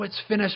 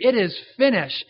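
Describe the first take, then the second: First: It is said in a resigned, defeated way. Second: It is shouted in a loud, triumphant way. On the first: Life and hopes are over. The speaker calls it wrong. "It wasn't something that, oh" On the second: The work has been accomplished. The speaker calls it right. "It was a shout of victory"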